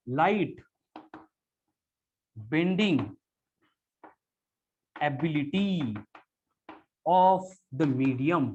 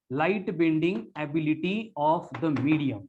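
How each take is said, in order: First: "light", "bending", "ability", "of the medium" said as separate words, long pause after each; word-by-word dictation. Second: "Light bending ability of the medium" said as one slow, unbroken phrase; dictated in one phrase. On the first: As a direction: dictate it one word at a time so students can write. (हर शब्द के बाद लंबा रुककर लिखवाना) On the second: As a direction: read the whole definition back slowly without stopping. (पूरी परिभाषा एक साथ धीमे-धीमे दोहराना) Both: Shown as a demonstration. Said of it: "In simple words".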